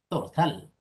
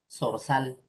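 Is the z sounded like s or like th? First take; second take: th; s. First: The z is sounded like th. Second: The z is sounded like s. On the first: This is how it is said in Spain. "en el español peninsular sería así" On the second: This is how it is said in Latin America. "La Z lo pronunciamos como la S"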